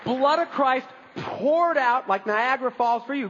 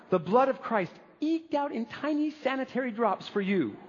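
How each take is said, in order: First: High, slow, sweeping proclamation; exuberant proclamation. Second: Higher, small dainty voice; mock a prim, tidy serving in a thin high voice. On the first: Acted. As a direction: pour the words out lavishly, stretching them. Contrasts lavish pouring with tidy drops. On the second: Mocks tiny, tidy communion servings.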